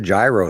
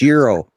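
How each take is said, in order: First: The word begins with a G sound. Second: The word begins with a Y-like vowel sound. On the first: "It starts with a friggin' G" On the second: "that's Euro"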